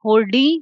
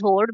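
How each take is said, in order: First: The word ends with an added 'ee' vowel. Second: The word ends on a plain 'd' sound. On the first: "you can think of it as hordi" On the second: "pronounced as horde"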